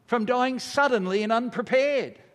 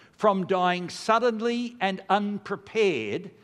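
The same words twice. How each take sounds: First: Higher and pressing on "unprepared"; emphatic repeat. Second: Slow, measured liturgical reading; prayer read slowly. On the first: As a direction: stress "unprepared" as a warning. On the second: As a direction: read each word of the prayer slowly and solemnly. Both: Shown as a demonstration. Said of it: "Now listen to this prayer".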